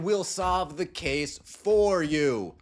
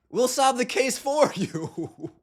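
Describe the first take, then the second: First: Slow, pointed mockery; slow, deliberate. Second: Laughing, slow. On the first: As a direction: drag out each word of 'We'll solve the case for you'. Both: Real, not acted. Mocking the league's investigation.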